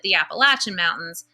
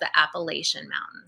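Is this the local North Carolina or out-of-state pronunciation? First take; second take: local; out-of-state. First: It uses the local North Carolina pronunciation. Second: It uses the out-of-state pronunciation. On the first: This is how people in the state say it. "I'm from North Carolina, so we pronounce it" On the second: This is how people from elsewhere say it. "From people from out of state"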